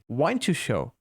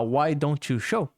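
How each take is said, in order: First: The words are run together and reduced. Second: Each word is said separately and fully.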